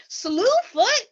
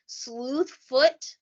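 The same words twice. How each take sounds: First: "Slewfoot?" squeaked much higher and louder in mock amazement; mocking disbelief. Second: "Sleuthfoot" said earnestly in the quoted father's voice. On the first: Hosts mock the strange name with a high, loud incredulous squeak. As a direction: toss "Slewfoot?" up high like you can't believe he said it. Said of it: "We were like". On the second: Retold or imitated. Father names the devil "Sleuthfoot" at the crime scene, said earnestly. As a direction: give "Sleuthfoot" its full weight as a serious name for the devil. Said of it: "cackled when he said Sleuthfoot".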